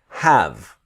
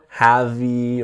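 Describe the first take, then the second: First: The word ends without an extra vowel. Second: An extra vowel is sounded at the end. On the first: The speaker calls it right. "The E is silent" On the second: The speaker calls it wrong. "Never have-y"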